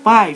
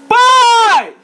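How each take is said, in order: First: The word is said in a calm, normal voice. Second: The word is shouted loudly and urgently. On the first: A casual call for attention. The speaker calls it wrong. "não falando assim" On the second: A desperate cry that makes the father drop everything. The speaker calls it right. "mas falando assim"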